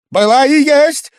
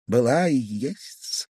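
First: Sudden high, very loud shout; near-frenzied cry. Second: Slow, hushed lead-in with rising end; slow, musing. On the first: Guest crying out about Liza, almost frenzied. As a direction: burst out at the top of the voice. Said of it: "закричал он вдруг почти в выступлении". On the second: Guest recalling what Liza was to him, slow and restrained. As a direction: let it out slowly, held back. Brooding before the frenzied repeat. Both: A narrator's reading.

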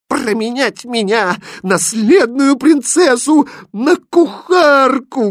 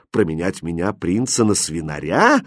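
First: Very high, loud princess fury; outraged cry swelling louder; furious exclamation. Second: Mildly amused, in an easy natural pitch; amused retort. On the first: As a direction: shriek in wounded pride, drawing it out. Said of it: "гневно воскликнула принцесса". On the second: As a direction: throw it back with light mockery. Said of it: "смеясь, ответил ей Хрустальд". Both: A narrator's reading.

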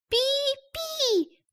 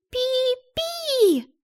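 First: Vague bird chirp. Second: Very high, unsure chirp; vague bird chirp. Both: Acted. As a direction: chirp without committing. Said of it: "неопределённо ответила она".

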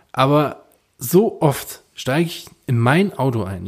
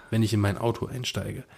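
First: Slow, leaning on "mein Auto"; stress on mein Auto. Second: Said in the usual way. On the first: Shown as a demonstration. Telling his friend it's his own car, stressing "mein Auto". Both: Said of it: "Ich betone mein Auto".

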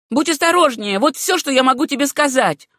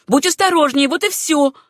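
First: Loud, high, insistent warning; a jealous cousin hammering it in; heated warning. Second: Louder, high, insistent repeat; a stubborn repeated threat; repeated warning. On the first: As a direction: press the warning home. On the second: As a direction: hit the warning again harder. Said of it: "повторила та". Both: A narrator's reading.

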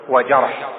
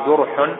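First: وجرح said "wa-jarh", with an a; fatha on the jim. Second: جرح said "jurh", with a u; damma on the jim. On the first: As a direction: open a vowel after the jim in وجرح. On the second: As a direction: clear u vowel after the jim in جرح. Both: Shown as a demonstration. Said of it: "بضم الجيم لا بفتحها".

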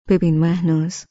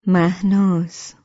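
First: Measured and firm, weight on ببین; calm serious address. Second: Drawn-out, gentle مهناز, falling at the end; slow tender name call. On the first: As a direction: call مهناز calmly but sternly, pressing ببین. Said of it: "با لحنی آرام و شمرده و در عین حال جدی گفت". (آرام و جدی، با تأکید بر «ببین») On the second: («مهناز» را آرام و کشیده، با لحن مهربان صدا بزن) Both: A narrator's reading.

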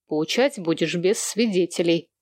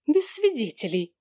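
First: Said in the usual way. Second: Higher-pitched offended echo; indignant echo. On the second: A narrator's reading. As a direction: throw the words back, affronted. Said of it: "возмутилась Джо".

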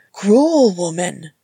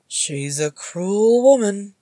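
First: Loud, drawn-out mock outrage; slow, punched accusation; indignant exclamation. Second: Slow, drawn-out commiseration; lilting, teasing pity; mock sympathy. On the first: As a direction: cry out in playful protest. Uncle protests after being kicked. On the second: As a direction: cluck sympathetically to a baby. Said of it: "clucking in sympathy". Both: A narrator's reading.

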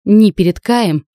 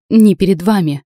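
First: "Ни" punched loud, slowed, falling; stress on ни. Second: Second "ни" punched loud and falling; stress on ни. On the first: Heroine refuses to bow before Kai, "Ни" stressed. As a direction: hit "Ни" hard and slow, pitch falling. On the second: Heroine refuses to bow to her uncle, "ни" stressed. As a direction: land "ни" firmly, pitch falling. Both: Acted.

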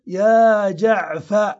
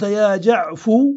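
First: يا جعفر with the final ر dropped and the فَ held open; suspended name ending. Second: يا جعفو ending firmly on a round u; closed u ending. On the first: Teacher showing the waiting dialect, slow and open. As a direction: say يا جعفَ drawn out, as if more is coming. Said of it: "هذه لغة من ينتظر". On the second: Teacher showing the non-waiting dialect, slow and firm. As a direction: say يا جعفو with a clear final u. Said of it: "خلاص علم أنك رخمت فلا ينتظر". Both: Shown as a demonstration.

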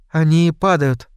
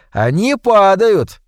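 First: Said in the usual way. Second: «падают» slow and loud, falling; slow, grave confirmation. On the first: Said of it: "догадалась Кэнди". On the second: A narrator's reading. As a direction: confirm «Они падают» slowly and heavily. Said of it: "кивнул Хват".

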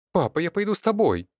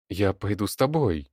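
First: Put-on high, loud girl's cry; sudden shout. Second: Tight, reluctant resolve; through clenched teeth. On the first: Daughter begs to follow her father, shouting. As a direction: shout it out much higher, urgently. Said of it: "вдруг закричала она". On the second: Leonid grudgingly offers to join Sergei, through his teeth. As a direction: force it out through gritted teeth. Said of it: "сквозь зубы проговорил Леонид". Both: A narrator's reading.

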